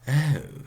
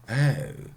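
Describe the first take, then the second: No difference in how they are said.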